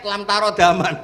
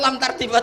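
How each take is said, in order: First: The second word is said as 'ta-ro-da-man'. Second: The second word is said as 'tar-di-man'. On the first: The speaker calls it right. "Ternyata itu di head lam tarodaman" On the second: The speaker calls it wrong. "ada orang tuh nggak tahu betul"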